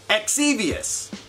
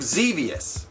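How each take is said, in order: First: The name starts with an 'eks' sound. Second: The name starts with a 'z' sound. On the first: The speaker calls it wrong. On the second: The speaker calls it right.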